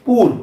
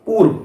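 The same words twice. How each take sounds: The two takes are said the same way.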